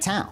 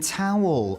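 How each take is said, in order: First: The word ends without any L sound. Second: The word ends with a clear L sound. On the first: "get rid of the W and E in the word, and it'll just disappear" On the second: "oh, you mean towel?"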